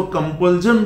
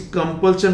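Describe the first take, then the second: First: कंपल्जन with a buzzed "zhan"; mispronounced ending. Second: Said in the usual way. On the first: Shown as a demonstration. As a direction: voice the sh of compulsion into z, as कंपल्जन. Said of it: "बोल देंगे तो गलत हो जाएगा". (गलत उच्चारण कंपल्जन, अंत में "ज़न") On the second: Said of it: "इस कंपल्शन को".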